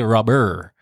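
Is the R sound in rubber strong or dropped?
strong. The R sound is strongly pronounced. This is the American way of saying it. "you really stress on your R's ... you say rubber"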